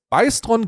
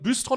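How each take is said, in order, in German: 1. Der erste Vokal ist ein ei-Diphthong. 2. Der erste Vokal ist ein gerundetes ü. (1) "der heißt Beistron" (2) "Der wird Büstron ausgesprochen"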